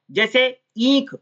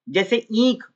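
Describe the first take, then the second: First: ईंख said slowly with a long ई; example word demo. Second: Said in the usual way. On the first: Shown as a demonstration. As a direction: draw out ईंख.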